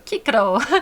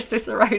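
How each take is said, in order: First: The C sounds are said as hard K. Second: The C sounds are said as soft S. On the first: It follows the classical Latin pronunciation. "it's a hard K sound" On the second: It follows the later, modern pronunciation. "instead of Cicero"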